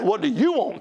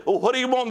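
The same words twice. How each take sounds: First: "you" picked out as the point, against God; stress on YOU. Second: Said in the usual way. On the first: Retold or imitated. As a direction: lean on "you" in the question. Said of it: "I didn't ask what God wanted". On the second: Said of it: "I'll say".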